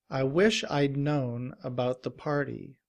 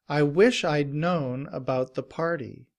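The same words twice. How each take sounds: Both takes have the same delivery.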